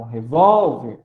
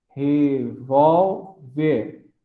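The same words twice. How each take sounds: First: "revólver" with VÓL punched louder; stress on VÓL. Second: "revólver" slowly split as re-vól-ver; syllable by syllable. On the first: Teacher showing the tonic syllable, loud stressed VÓL in "revólver". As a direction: lean hard on the middle syllable of "revólver". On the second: Teacher dividing a word for class, "revólver" slowly in three separate syllables. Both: Shown as a demonstration. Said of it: "a sílaba tônica é o vol".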